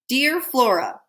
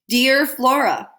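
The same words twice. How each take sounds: First: It is said at normal volume, calmly. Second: It is said louder and more insistently.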